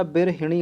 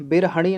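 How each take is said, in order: First: बिरहिणी said as bir-hi-ṇī; correct middle vowel. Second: बिरहणी said as bir-ha-ṇī; wrong middle vowel. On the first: Teacher giving the correct word, बिरहिणी with -hiṇī. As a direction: put a short i after h in बिरहिणी. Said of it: "बिरहिणी होता है". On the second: Teacher showing the error, बिरहणी with -haṇī. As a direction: put an a after h in बिरहणी. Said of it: "बिरहणी नहीं होता". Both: Shown as a demonstration.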